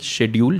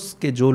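First: It is said the British way, with 'sh'. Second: It is said the American way, with 'sk'.

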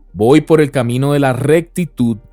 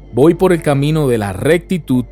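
The two takes are said the same way.

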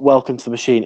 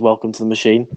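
First: It is said brightly, without a sigh. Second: It is said sadly, almost as a sigh.

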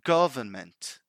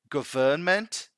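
First: The stress falls on the first syllable. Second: The stress falls on a later syllable. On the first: The speaker calls it right. "the correct pronunciation of it is government" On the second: The speaker calls it wrong. "putting the emphasis in the wrong place"

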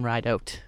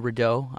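First: The surname is pronounced the English way. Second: The surname is pronounced the French way. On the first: The speaker calls it right. "There's no accent, but yeah, my name is [name]" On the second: The speaker calls it wrong. "Some people say Rideau. I'm not French"

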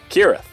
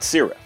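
First: The word begins with a hard K sound. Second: The word begins with a soft S sound. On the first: The speaker calls it right. "that's a hard k sound" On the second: The speaker calls it wrong. "not Cirith"

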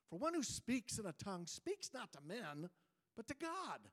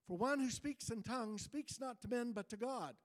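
First: It is read in a critical, disapproving tone. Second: It is read in a plain, neutral tone.

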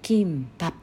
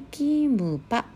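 First: The word ends with the lips closing on p. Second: The word ends without a closed-lip p sound. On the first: The speaker calls it right. "最後に実は口を閉じるP の発音があります。" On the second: The speaker calls it wrong. "たまにキンパとカタカナで書かれるんですが"

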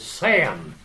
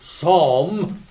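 First: It is said like Sam, Southern US style. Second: It is said the general North American way.

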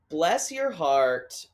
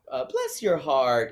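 First: The pitch stays fairly level throughout. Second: The pitch starts high and falls down.

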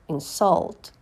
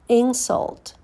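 First: The stress is on the second syllable. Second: The stress is on the first syllable. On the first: It is a verb. "and then the verb" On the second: It is a noun. "First, you hear the noun"

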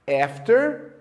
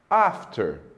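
First: The first vowel is a flat front a. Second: The first vowel is a broad open ah. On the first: "Já nos Estados Unidos, ela geralmente tem o som E" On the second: "No Reino Unido, ela é frequentemente pronunciada com o som A"

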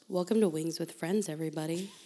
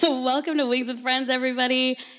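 First: It is said in a soft, hushed radio voice. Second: It is said in an ordinary speaking voice.

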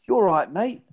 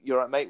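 First: It is said in an exaggerated fake British accent. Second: It is said in a natural, everyday accent.

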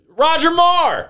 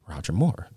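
First: It is shouted out loudly. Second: It is said quietly and casually.

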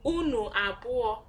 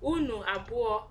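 The two takes are said the same way.

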